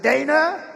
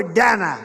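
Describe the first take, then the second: First: "Dana" said DAY-nuh, rising as a question; first syllable of "Dana" rhymes with "day"; long-A Dana. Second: "Dana" said DAN-uh, falling at the end; first syllable of "Dana" rhymes with "man"; short-A Dana. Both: Shown as a demonstration. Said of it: "nobody knows how to say her first name".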